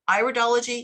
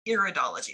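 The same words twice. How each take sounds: First: The first syllable sounds like 'eye'. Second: The first syllable sounds like 'ear'. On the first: The speaker calls it right. "we're studying eyes" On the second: The speaker calls it wrong. "not iridology. We're not studying ears here"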